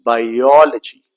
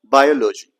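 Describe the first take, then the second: First: Slow, loud bi-OL-ogy for "biology"; second syllable stressed. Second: "biology" as BI-o-lo-gy, stressed at the front; wrong stress. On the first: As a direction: stretch the OL in "biology", longer and louder. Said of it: "The second syllable is stressed". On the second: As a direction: put no weight on the OL of "biology". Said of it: "So we never say biology". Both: Shown as a demonstration.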